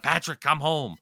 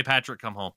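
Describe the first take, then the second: First: Lightly voiced fans calling out; a slightly raised, mild call to a hero; fans' plea. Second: Said in the usual way. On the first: Montreal fans pleading for a coach's return, mild plea. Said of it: "people are like". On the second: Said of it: "[name], say".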